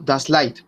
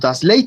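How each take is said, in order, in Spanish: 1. La vocal se dice como un solo deslizamiento 'ai'. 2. La vocal se dice como 'e' y 'i' separadas. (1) "suena I" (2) "no decimos Das Light"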